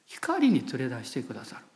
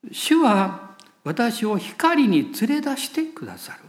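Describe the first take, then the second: First: 光に連れ出してくださる repeated quieter and lower; soft echo. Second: 主は私を光に連れ出してくださる read very slowly, each word weighed; slow scripture reading. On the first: Preacher repeating the promise to the congregation, quietly. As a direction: let the phrase sink in, softly. Echoes the verse softly. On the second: Preacher reading Micah aloud to the church, very slow and weighty. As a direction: proclaim the verse slowly and firmly. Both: Acted.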